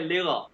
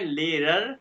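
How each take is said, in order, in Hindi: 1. अंतिम r छूट जाता है और अगले स्वर से जुड़ जाता है। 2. अंतिम r की ध्वनियाँ पूरी तरह बोली गई हैं। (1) "लेकिन एह तरीका जर्मन में कहने का लेगा" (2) "किताबी लैंग्वेज है लेरर"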